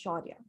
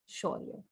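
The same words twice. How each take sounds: First: The name ends with a final 'a' vowel. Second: The name ends on the 'y' sound. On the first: The name belongs to a woman. "a female is Shaurya" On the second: The name belongs to a man. "you just end it at the Y"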